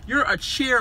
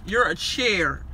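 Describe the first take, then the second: First: "you're a chair" with a rising, questioning lift; "you're a chair" lifted at the end, mocking. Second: "You're a chair." dropped flat and final; "You're a chair." closing down, dismissive; falling chair. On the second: Retold or imitated. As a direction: state "You're a chair." as a cold fact.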